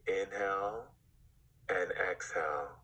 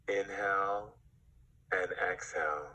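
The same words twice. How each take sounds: The two takes are said the same way.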